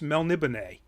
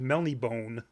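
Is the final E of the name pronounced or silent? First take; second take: pronounced; silent. First: The final E is pronounced as a syllable. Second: The final E is silent, not pronounced. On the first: The speaker calls it right. "which means you actually say it" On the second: The speaker calls it wrong. "People who pronounce it that way just blow my mind"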